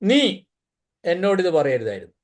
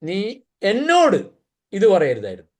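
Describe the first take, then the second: First: The stress falls on the word നീ. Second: The stress falls on the word എന്നോട്. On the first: It matters that this person said it. "നീ പറഞ്ഞുകൊണ്ടാ പ്രശ്നം" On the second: It matters that it was said to me. "എന്നോട് പറഞ്ഞുകൊണ്ടാ പ്രശ്നം"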